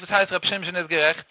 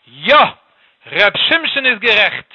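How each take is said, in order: First: Subdued, questioning repeat; understated bewilderment; puzzled question. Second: Loud, slow, amused royal outburst; king's emphatic cry of recognition; bursting exclamation. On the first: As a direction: ask it quietly, not understanding. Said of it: "Hat ihm der Jid gefragt". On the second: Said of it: "hat ausgeplatzt in der Gelächter". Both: Acted.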